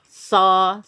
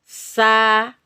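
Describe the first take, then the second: First: The s sounds thick, with a darker vowel. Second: The s sounds thin, with a brighter vowel. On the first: The speaker calls it wrong. "kalau oh, tebal jadi so" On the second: The speaker calls it right. "Tapi kalau tipis sa"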